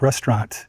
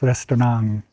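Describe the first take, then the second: First: The word ends with a clear t sound. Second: The word ends with a soft ng sound. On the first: "they don't end it with a t like English, like restaurant" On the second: "the French pronunciation had a little ng on the end of it"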